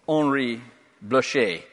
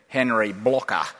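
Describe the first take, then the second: First: The name is said in the speaker's usual way. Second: The name is said the Australian way.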